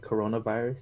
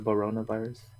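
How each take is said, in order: First: The c sounds in the word are pronounced. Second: The c sounds in the word are dropped. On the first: "Instead of saying like coronavirus" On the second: "they don't pronounce C's"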